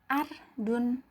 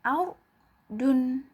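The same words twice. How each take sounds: First: The r is plain, without rounded lips. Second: The r is thick, with rounded lips. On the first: The speaker calls it wrong. "Jangan hanya dibaca ar dun" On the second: The speaker calls it right. "tetapi ar dun, begitu ya"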